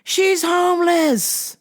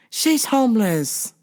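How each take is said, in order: First: Higher and slow on She's; emphatic. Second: Said in the usual way. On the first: Retold or imitated. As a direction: stress She's homeless.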